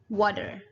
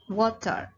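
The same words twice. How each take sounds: First: It is said in an American accent. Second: It is said in a British accent. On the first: "And then in American English, the word water is called water" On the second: "So in British English, the water the water is called water"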